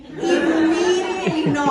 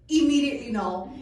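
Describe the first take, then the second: First: Louder second no, laughing; louder emphatic no, half laughing; emphatic mock refusal. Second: Said in the usual way. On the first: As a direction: repeat it harder and louder, cracking up. Refusing the mountain climb.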